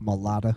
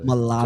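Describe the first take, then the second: First: The word is said in a Southern accent. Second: The word is said in a standard accent.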